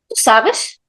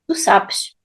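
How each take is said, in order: First: The pitch rises at the end. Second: The pitch stays level at the end. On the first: It is a question. "the last word, it goes higher" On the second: It is a statement. "a statement is always stable"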